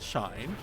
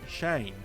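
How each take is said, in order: First: The vowel sounds like 'eye' in 'line'. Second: The vowel sounds like 'ay' in 'day'. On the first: The speaker calls it wrong. "not Shine" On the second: The speaker calls it right. "Say it properly. It's Shane"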